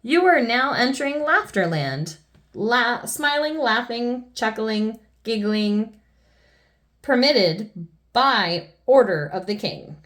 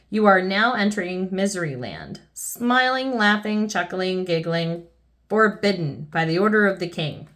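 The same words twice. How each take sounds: First: Joyful proclamation. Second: Sign reading. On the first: Reading out the new Laughterland sign, joyful proclamation. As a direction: announce the happy new rule grandly. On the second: Reading the old forbidding sign. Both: A narrator's reading.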